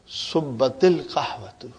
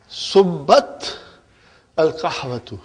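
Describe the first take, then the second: First: The t links into the next word with i. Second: The t stops before al with no linking vowel. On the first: The speaker calls it right. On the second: The speaker calls it wrong.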